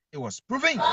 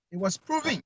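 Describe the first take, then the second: First: It was proven, called out high; emphatic shout. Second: Said in the usual way. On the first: Real, not acted. Caller on the radio show insisting the journalists were proven right, shouting. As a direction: throw it out like a verdict.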